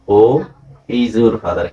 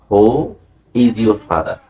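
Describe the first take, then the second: No difference in how they are said.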